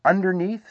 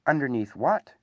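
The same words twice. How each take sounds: First: High little voice from below; lightly voiced small creature, pitched up; underneath sort of voice. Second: Said in the usual way. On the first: A narrator's reading. Piglet answers from under Pooh, underneath sort of voice. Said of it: "in an underneath sort of way".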